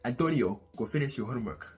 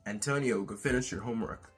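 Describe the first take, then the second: First: It is said in a flavorful Hispanic accent. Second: It is said in a plain, neutral accent. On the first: "There is a lot more flavor to it" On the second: "instead of saying"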